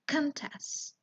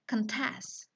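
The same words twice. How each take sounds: First: "contest" with the stress on CON; stress on first syllable. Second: "contest" with the stress on TEST; stress on second syllable. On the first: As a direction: noun form "contest", CONtest. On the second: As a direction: verb form "contest", conTEST. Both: Shown as a demonstration. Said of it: "be careful on giving the stress".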